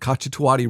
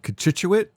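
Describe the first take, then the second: First: It sounds like catch-a-too-ah-tee. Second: It sounds like co-CHIT-you-ate. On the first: The speaker calls it wrong. "the first time I saw it" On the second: The speaker calls it right. "It's called Cochituate"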